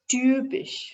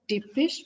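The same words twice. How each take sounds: First: The first vowel is an ü sound. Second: The first vowel is not an ü sound. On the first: The speaker calls it right. "Epsilon takes the sound of u umlaut" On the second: The speaker calls it wrong. "not typisch"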